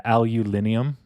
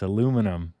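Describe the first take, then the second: First: Alulinium, stressed on LIN with an "-ium" ending; loud, rising alulinium with an extra syllable; mangled pronunciation. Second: Aluminum, four syllables stressed on LU; corrected pronunciation. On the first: Streamer mocking a mispronounced aluminum, alulinium stressed on LIN. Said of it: "Wrong emphasis on the wrong syllable". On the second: Streamer correcting the mangled word, aluminum stressed on LU. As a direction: say aluminum the American way, ending "-num". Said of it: "It's aluminum". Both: Shown as a demonstration.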